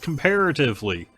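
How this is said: It is said in an American Midwestern way. "the American Midwestern side of me is like, that's comparatively"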